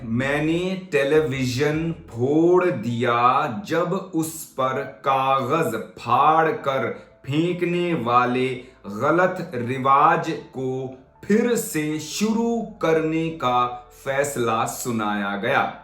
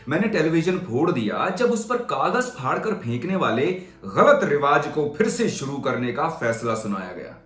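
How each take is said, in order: First: The sentence is read slowly and carefully. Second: The sentence is read at a natural flowing pace.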